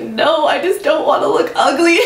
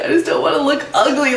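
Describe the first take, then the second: First: High, laughing, near tears; embarrassed laughing whine; laughing half-cry. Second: High whiny quote. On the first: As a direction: laugh it out while almost crying. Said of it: "Which is so dumb". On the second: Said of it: "I was just like". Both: Retold or imitated.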